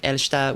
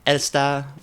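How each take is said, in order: First: It has a sh sound before the t. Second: It has a plain s sound before the t. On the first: "a little bit more of a um a sh on the on the the s there" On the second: "in German, it would be like Elsta"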